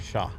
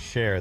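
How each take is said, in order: First: The word ends in an open vowel without r. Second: The word ends with a clear r sound. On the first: "they say "Shaw."" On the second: "Cajuns don't say "share,""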